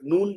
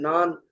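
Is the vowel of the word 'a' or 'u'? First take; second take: u; a. First: The vowel is a rounded 'u' sound. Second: The vowel is an open 'a' sound. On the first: This is how it is actually spoken. "नून बोला जाता है" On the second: This is the written form. "नान लफ्ज होता है लिखा भी जाता है"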